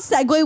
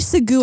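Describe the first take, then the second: First: The word ends with a 'way' sound. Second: The word ends with a 'goo' sound. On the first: "So we don't segue" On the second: "I pronounced it as segoo"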